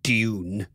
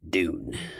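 First: It is said with a non-American accent. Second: It is said with an American accent.

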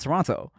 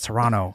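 First: The second T is clearly pronounced. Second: The second T is dropped. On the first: The speaker is an outsider to the city. The speaker calls it wrong. "before we go out there, you'd be like, oh yeah, I'm going to Toronto" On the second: The speaker sounds like a local. The speaker calls it right. "we don't say the T out here. It's Toronto"

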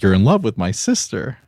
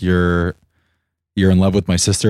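First: It is said in a pleased tone. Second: It is said in an angry tone.

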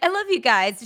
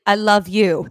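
First: It is said casually, tossed off. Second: It is said earnestly and intensely.

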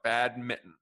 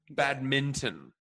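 First: The middle N sound is left out. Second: The middle N sound is fully pronounced. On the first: "No N whatsoever" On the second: "the total acknowledgement of the N"

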